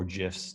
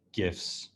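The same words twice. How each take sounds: First: "gifs" said like "jifs"; soft-G pronunciation of "gifs". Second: "gifs" with a hard G, as in "give"; hard-G pronunciation of "gifs". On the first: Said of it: "depending on how you like to pronounce it". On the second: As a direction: say "gifs" starting with a hard g sound. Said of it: "how you like to pronounce it". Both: Shown as a demonstration.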